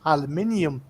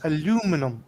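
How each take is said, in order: First: It is said the European way. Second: It is said the American way. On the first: "most people in Europe pronounce it aluminium" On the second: "you guys pronounce it aluminum"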